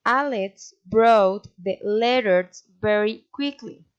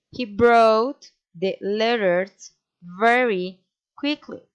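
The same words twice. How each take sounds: First: Five beats on ALEX, BROUGHT, LETTERS, VERY, QUICKLY; measured rhythm starting with a beat on ALEX; five stresses. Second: Slow beats on BROUGHT, LETTERS, VERY, QUICKLY; four stresses. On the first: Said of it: "A statement with five stresses". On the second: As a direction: BROUGHT hit hardest, then LETTERS, VERY, QUICKLY spaced out. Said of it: "A statement with four stresses". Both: Shown as a demonstration.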